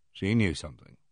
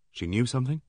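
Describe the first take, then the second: First: Falling, lower, stress on "knew"; firm statement. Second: Rising question on "something"; questioning rise. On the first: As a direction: confirm it, press "knew" down low. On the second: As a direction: ask it, lift at "something". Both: A narrator's reading. Question then echoed answer.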